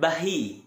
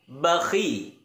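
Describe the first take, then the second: First: The middle consonant is a soft breathy 'h'. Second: The middle consonant is a harsh throaty 'kh'. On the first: The speaker calls it wrong. "Jangan bahi" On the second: The speaker calls it right.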